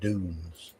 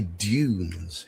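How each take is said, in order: First: The word is said with a non-British pronunciation. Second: The word is said with a British pronunciation. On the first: "rather than dunes" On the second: "we say dunes here in British English"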